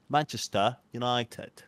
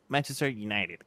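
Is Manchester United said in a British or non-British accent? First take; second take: British; non-British. First: It is said in a British English accent. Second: It is said in a non-British English accent. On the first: "el Dibu sabe inglés británico" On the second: "como tú lo dices"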